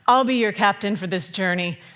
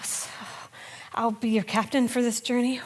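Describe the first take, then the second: First: It sounds calm and confident. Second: It sounds nervous and hesitant.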